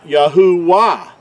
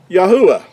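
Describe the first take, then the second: First: Yahuwah as Yah-hoo-WAH, with a clear W; mispronounced with W. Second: Yahuwah as Yah-oo-ah, W unstressed and unsounded; correct pronunciation. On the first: Teacher showing what a W causes, Yahuwah said Yah-hoo-WAH. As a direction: hit a strong wah ending on Yahuwah. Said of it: "when you put a W in there". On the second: Teacher giving the transliterated name, Yahuwah pronounced Yah-oo-ah. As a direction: say Yahuwah higher and louder, gliding from oo into ah. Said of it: "to give us the pronunciation". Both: Shown as a demonstration.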